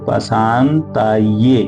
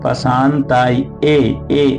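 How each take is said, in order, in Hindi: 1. अंत एक जुड़े 'ye' अक्षर की तरह बोला जाता है। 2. अंत अलग 'e' स्वर से बोला जाता है। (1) "या में एक की मात्रा है तो पशान्ताये ऐसा बोलेंगे" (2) "ऐसा नहीं बोलेंगे"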